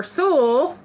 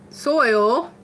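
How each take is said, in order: First: Said in the usual way. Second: "soil" with a clear OY sound; self-corrected pronunciation. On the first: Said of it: "don't know any other way". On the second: Shown as a demonstration. Streamer fixing her Kentucky vowel, carefully pronounced soil. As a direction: round out the oy glide in "soil". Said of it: "I can't naturally say soil".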